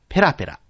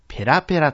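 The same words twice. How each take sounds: First: It has the pitch accent used for chattering. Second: It has the pitch accent used for flimsy. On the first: It describes talking glibly or fluently. "ペラペラ喋るという場合にはペラペラとなりますが" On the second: It describes something thin and flimsy. "ペラペラの紙という場合にはペラペラとなります"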